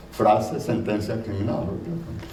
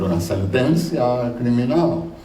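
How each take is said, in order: First: Said in the usual way. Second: "Una sentencia criminal" said in Spanish, with Spanish vowels and a rolled feel; careful Spanish "sentencia criminal", slightly raised; Spanish pronunciation. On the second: Shown as a demonstration. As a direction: read "Una sentencia criminal" as a native Spanish speaker would. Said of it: "and a criminal sentence is".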